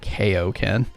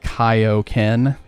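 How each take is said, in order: First: It is pronounced the American dubbed way. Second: It is pronounced the original Japanese way. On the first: The speaker calls it wrong. "in the American version they changed it to Kaioken" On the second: The speaker calls it right. "Kaioken is named that because of Kaio-sama"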